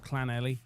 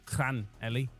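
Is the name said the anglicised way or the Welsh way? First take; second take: anglicised; Welsh. First: The name is said with English-style sounds. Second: The name is said with Welsh-style sounds. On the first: The speaker calls it wrong. "not Llanelli" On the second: The speaker calls it right. "Llanelli, apparently"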